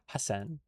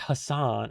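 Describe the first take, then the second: First: The name is said without a broad 'ah' vowel. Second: The name is said with a broad 'ah' vowel. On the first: The speaker calls it right. "it's uh Hassan" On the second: The speaker calls it wrong. "Americans do like to say the ah, don't they? It's not Hassan"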